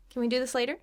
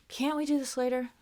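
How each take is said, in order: First: Light polite request with a quick CAN; rising, easy question; more positive. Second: Annoyed push on CAN'T; impatient question, stretching CAN'T; more attitude. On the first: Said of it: "more positive". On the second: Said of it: "It's more attitude there". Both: Shown as a demonstration.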